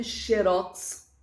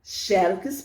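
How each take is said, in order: First: "xerox" stressed on ROX; xe-ROX, weight on the last syllable of "xerox"; oxytone stress. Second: "Xerox" stressed on XÉ; XÉ-rox, weight up front in "Xerox"; paroxytone stress. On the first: Teacher recapping both forms, final stress on "xerox". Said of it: "oxítona". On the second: Teacher recapping both forms, first-syllable stress on "Xerox". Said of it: "paroxítona". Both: Shown as a demonstration.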